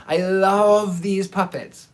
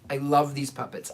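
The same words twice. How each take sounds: First: "love" drawn out long and lifted; gushing emphasis. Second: Said in the usual way. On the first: Retold or imitated. Buyer besotted with the puppets, "love" slow and gushing. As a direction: stretch "love" slowly with adoring emphasis.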